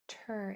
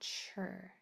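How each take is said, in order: First: The syllable begins with a clear t sound. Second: The syllable begins with a ch sound. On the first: The speaker calls it right. "Pronounce it nice and clear, ter" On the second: The speaker calls it wrong. "and not chur"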